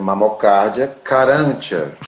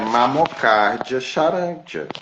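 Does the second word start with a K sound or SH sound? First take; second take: K sound; SH sound. First: The second word starts with a K sound. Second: The second word starts with an SH sound. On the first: This is the Latin reading of the name. "em latim" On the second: This is the Portuguese reading of the name. "em escrito falando em português"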